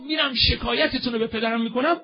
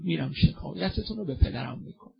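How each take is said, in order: First: The same line cried out, higher and louder; fervent cry. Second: Said in the usual way. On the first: Retold or imitated. Zahra's quote, raised and fervent. (با ناله و فریاد بلند)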